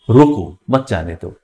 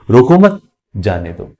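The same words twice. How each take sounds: First: There is a pause right after रोको. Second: There is a pause right after मत.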